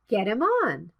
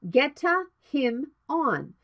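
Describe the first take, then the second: First: 'Get' links smoothly into 'him' without added vowel. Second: An extra vowel sound follows 'get' before 'him'. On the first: The speaker calls it right. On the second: The speaker calls it wrong. "not geta him on"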